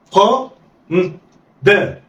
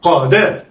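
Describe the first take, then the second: First: "قا" held, pause, then "دا"; letters sounded apart. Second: "قا دا" joined in one quick go; snatch "قا دا" with no pause; snatched together. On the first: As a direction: say "قا" and "دا" as separate syllables. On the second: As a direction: blend "قا دا" like one word. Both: Shown as a demonstration. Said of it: "يلا، اخطف".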